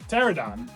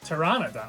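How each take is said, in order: First: The word is said without the middle syllable. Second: The word is said with the middle syllable. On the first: The speaker calls it wrong. "just the N O has always been silent for me" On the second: The speaker calls it right. "I think we've just been missing a syllable of this word"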